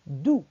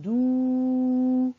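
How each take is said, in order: First: "دو" said briefly, no stretch; short vowel. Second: "دو" held very long on a level pitch; drawn-out vowel. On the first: Teacher recalling what she said, "دو" kept short. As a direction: cut "دو" short. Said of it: "معلمة قالت". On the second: Teacher showing what she did not say, "دو" drawn out long. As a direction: stretch the "ou" of "دو" far out. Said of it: "ولم تقل". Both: Shown as a demonstration.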